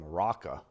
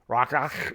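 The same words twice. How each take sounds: First: The word ends plainly, with no throat sound. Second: The word ends with a harsh throat-clearing sound. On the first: The speaker calls it wrong. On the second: The speaker calls it right.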